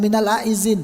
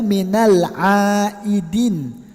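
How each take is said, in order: First: The second word has a z sound. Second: The second word has a d sound. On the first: The speaker calls it wrong. "Banyak kan wong ngomong minal aizin" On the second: The speaker calls it right. "Yang benar tuh minal aidin"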